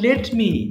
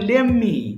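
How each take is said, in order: First: Both words are pronounced fully and separately. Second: The words are blended into one shortened word.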